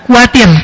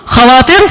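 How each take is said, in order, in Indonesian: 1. Diawali bunyi yang lebih lembut, tanpa kh yang serak. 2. Diawali bunyi kh yang serak dari tenggorokan. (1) "susah nyebut kha, akhirnya khawatir" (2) "Dulu khawatir"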